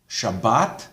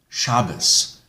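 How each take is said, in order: First: The word ends with a T sound. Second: The word ends with an S sound.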